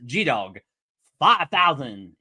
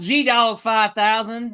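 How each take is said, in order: First: It is said in a plain, neutral accent. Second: It is said in a Southern Arkansas accent.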